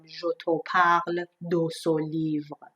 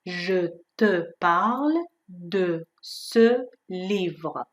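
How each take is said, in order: First: "je te parle de ce livre" with o instead of schwa; wrong vowels. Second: "Je te parle de ce livre" with proper French schwa; correct schwa. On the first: Teacher showing learners the common mistake: rounded vowels. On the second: Teacher giving the right version after the wrong one: careful schwa. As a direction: say it the right way, slowly. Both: Shown as a demonstration.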